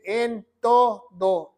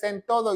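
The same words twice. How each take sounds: First: "en todo" slow, in separate syllables; "en... to... do", each beat held apart; emphatic stress. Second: Said in the usual way. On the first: Shown as a demonstration. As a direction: stretch "en todo" out to insist on it. Insists on exact words of scripture.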